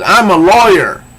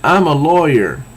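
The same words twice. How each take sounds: First: High, loud acted shout; louder retake. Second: Said in the usual way. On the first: She shoves him into the wall, shouting louder. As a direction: belt it out at a much higher pitch. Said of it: "louder, but she says". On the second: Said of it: "she should have ha-, said it louder".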